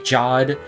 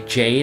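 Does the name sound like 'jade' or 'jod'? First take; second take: jod; jade. First: The name has the vowel of 'odd'. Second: The name has the vowel of 'made'. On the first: This is the odd way the show says the name. "they say Jod" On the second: This is the usual way to say the name. "they don't say Jade"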